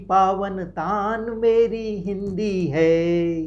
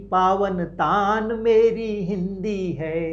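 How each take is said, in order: Both takes have the same delivery.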